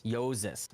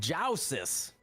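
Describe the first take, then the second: First: Yosis said YOH-zis with a Y onset; Yosis, long O, then Z; corrected pronunciation. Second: Jousis with ZH sound, OW vowel; wrong pronunciation. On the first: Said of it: "Oh, okay". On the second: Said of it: "we're both wrong". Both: Shown as a demonstration.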